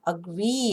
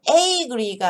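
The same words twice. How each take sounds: First: "agree" with a reduced uh first syllable; schwa first syllable. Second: "agree" with a full first vowel; full vowel, wrong way. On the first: Teacher showing the schwa in "agree". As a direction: swallow the "a" in "agree". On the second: Teacher showing the wrong way to say "agree". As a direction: stress both syllables of "agree". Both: Shown as a demonstration. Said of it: "agree가 아니라 agree".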